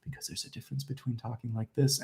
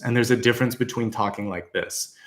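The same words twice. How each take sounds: First: Soft, breath-only delivery; hushed, hardly any voice behind it; unsupported voice. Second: Fuller voice from the solar plexus; supported, fully voiced delivery; pushed from belly. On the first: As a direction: say it faintly, without pushing from the belly. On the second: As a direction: push it out from the diaphragm. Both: Shown as a demonstration. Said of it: "taking that solar plexus and pushing it".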